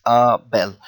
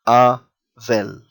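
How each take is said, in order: First: "a bell" with a B, as "ah bel"; B sound. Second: "a well" with a V, as "ah vel"; V sound. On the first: Teacher showing the reading for a name, "a bell" with a B. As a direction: say "a bell" as ah, then bel, slowly. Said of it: "because it is a name". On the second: Teacher showing the non-name reading, "a well" with a V. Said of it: "if this wasn't a name". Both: Shown as a demonstration.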